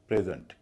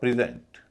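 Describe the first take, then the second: First: The stress is on the first syllable. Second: The stress is on the second syllable. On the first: It is a noun meaning a gift. "पहले हिस्से पर stress है" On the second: It is a verb meaning to give. "दूसरे पर stress है, पहले पर नहीं है"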